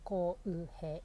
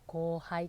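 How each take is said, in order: First: The last syllable is said as 'hei'. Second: The last syllable is said as 'hai'. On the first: "浩う平ですよね" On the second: "ドイツ語で読まれてしまうと、後輩くんになるんですよ"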